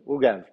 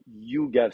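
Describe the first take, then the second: First: The word begins with a vowel sound. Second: The word begins with a y sound. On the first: The speaker calls it right. "c'est Ugav. C'est un Aïn devant" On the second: The speaker calls it wrong. "Parce que Yugav, c'est avec un Yod"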